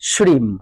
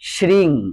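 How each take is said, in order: First: The word ends with a closed m sound. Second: The word ends with a nasal ng sound. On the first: This is the Sanskrit pronunciation. "এটা সংস্কৃত উচ্চারণ" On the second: This is the Bengali pronunciation. "আমরা যদি এটাকে বাংলায় করে নেই"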